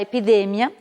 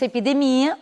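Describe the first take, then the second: First: The stress falls where Spanish places it. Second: The stress falls where Portuguese places it. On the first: "em espanhol será" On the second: "em português nós diríamos"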